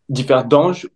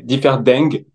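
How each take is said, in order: First: The name is pronounced the French way. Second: The name is pronounced the Luxembourgish way. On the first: "on peut dire Differdingue" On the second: "en luxembourgeois, c'est Differdingue"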